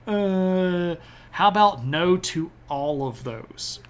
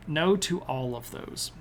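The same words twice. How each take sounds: First: Lightly mocking, raised pitch on the uh; a cheeky flat no to all of it; playful dismissive refusal; sassy refusal. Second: Said in the usual way. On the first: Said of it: "Russia's like".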